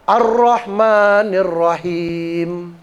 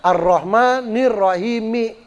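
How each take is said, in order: First: The phrase ends on the m consonant. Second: The phrase ends with a short i vowel. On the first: This is the reading when stopping at the verse end. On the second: This follows the written vowel mark.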